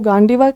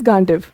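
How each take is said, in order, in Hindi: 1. नाम के अंत में एक अतिरिक्त अंतिम 'a' स्वर जुड़ा है। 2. नाम व्यंजन पर समाप्त होता है, उसमें कोई स्वर नहीं है। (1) "इंग्लिश में अगर आप प्रनाउंस करोगे तो गांडीवा कहलाएगा" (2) "बट ऐसे इट इज गांडिव"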